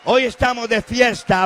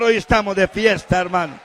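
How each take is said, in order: First: Louder and higher, HOY pushed up; festive call repeated. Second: Loud preaching shout; HOY stressed and falling; festive call. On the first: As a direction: ramp the celebration higher. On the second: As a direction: proclaim the celebration loudly. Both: Acted.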